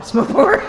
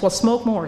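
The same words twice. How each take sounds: First: Pushing the repeat up, higher and louder; louder insistence. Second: Said in the usual way. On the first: Retold or imitated. Old-timers urging the newcomer on: louder, insistent. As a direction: hammer the advice home. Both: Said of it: "they told us".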